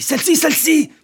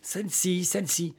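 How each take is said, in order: First: High-pitched excited shout, building; yelling. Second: Softer, toned-down repeat; hushed echo. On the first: Older man pointing out the door, yelling. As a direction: repeat it higher and louder each time. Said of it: "Mais pourquoi hurlez-vous?". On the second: Young man correcting his noisy companion, hushed. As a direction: say it back softly. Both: Acted.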